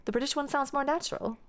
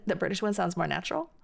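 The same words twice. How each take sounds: First: High start, "more" prominent, then falling on "natural"; higher-pitched British question tune, fall after "more"; British question intonation. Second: Quicker, rising at the end on "natural"; brisk question tune with "natural" going up; contrasting question intonation. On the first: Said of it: "See, that was". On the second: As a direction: start level and lift "natural" at the finish. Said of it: "you have to say them next to each other". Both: Shown as a demonstration.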